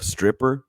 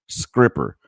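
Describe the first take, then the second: First: The word begins with an 'str' sound. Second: The word begins with an 'skr' sound. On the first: "Instead of stripper" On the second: "they would say scripper"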